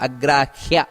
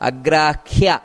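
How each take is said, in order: Both takes have the same delivery.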